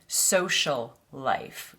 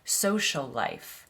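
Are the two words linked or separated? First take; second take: separated; linked. First: The two words are said separately. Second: The two s sounds are joined together. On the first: The speaker calls it wrong. "we don't say social life" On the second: The speaker calls it right. "We say social life"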